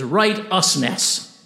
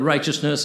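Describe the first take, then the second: First: The middle is split as 'right-us', with a clear t. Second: The middle sounds like 'chus', the usual way.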